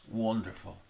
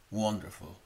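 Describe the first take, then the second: No difference in how they are said.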